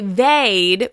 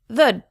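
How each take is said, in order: First: The vowel is full and clearly pronounced. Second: The vowel is reduced to an indistinct sound. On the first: The speaker calls it wrong. "We don't say they'd" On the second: The speaker calls it right. "we say they'd"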